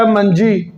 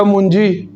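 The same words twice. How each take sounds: First: منجی said "manjī", with an a after the m; short a in the first syllable of منجی; manji with zabar. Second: منجی said "munjī", with a u after the m; short u in the first syllable of منجی; munji with pesh. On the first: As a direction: say منجی as "man-jee". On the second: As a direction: say منجی as "mun-jee". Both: Shown as a demonstration. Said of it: "اگر کوئی میم پر پیش پڑے".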